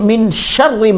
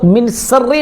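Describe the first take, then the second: First: The second word starts with an sh sound. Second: The second word starts with a plain s sound. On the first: The speaker calls it right. "बल्कि मिन शर्रि मा खलक" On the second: The speaker calls it wrong. "आपको मिन सर्री नहीं बोलना है"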